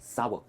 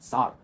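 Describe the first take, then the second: First: The word sounds like 'sour' with a glide. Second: The word sounds like 'saar' without a glide. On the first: The speaker calls it right. "यही है इसकी सही pronunciation, सावर" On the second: The speaker calls it wrong. "Not सार"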